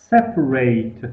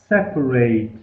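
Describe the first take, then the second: Both takes have the same delivery.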